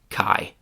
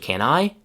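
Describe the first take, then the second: First: Can shrinks to a k sound joined to I. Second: Can is said in full before I.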